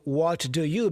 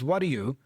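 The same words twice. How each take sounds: First: Each word is said separately and fully. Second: The words run together in connected speech.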